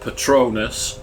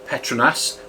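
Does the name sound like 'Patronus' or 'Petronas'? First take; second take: Patronus; Petronas. First: It sounds like the word 'Patronus'. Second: Each letter keeps its own plain sound. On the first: The speaker calls it wrong. "not Patronus, which even Google pronunciation gets wrong" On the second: The speaker calls it right. "I did say Petronas"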